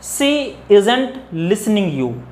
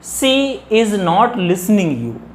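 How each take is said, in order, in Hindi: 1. 'is not' एक ही शब्द में संक्षिप्त हो जाता है। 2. 'is not' दो अलग-अलग शब्दों की तरह बोला जाता है। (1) "is not like we pronounce as isn't" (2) "Without contraction"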